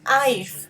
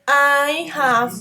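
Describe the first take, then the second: First: The two words are contracted into one syllable. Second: Both words are said in full. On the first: The speaker calls it right. "The pronunciation is I've" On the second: The speaker calls it wrong. "you are used to say I have been, and that's not the pronunciation"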